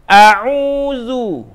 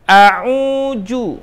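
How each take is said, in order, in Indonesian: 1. Suku kata terakhir diawali dengan bunyi 'th' yang lembut. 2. Suku kata terakhir diawali dengan bunyi 'j'. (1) "Bacanya jadi a'udzu" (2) "bukan a'uju"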